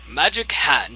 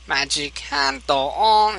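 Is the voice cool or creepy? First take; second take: cool; creepy. First: It is said in a cool voice. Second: It is said in a creepy GLaDOS voice.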